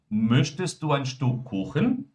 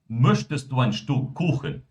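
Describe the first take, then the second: First: The voice goes higher at the end. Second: The voice goes lower at the end. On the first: "ou eu posso também levantar" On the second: "Olha só como a minha voz lá baixou"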